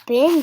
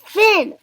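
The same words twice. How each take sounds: First: Loud, whining echo; whined. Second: High, loud command; shouted. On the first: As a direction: whine the command back. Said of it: "Gerald whined". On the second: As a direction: bark out the dance move. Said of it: "Piggy shouted". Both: A narrator's reading.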